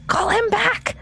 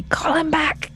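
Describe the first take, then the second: First: Very high, panicky squeal of a plea; frantic plea. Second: High, urgent mock-panicked call; urgent plea. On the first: Acted. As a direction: beg frantically, voice leaping up. Repeats the plea, more frantic. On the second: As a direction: plead in alarm for the pet's return. Player acts out urgent plea.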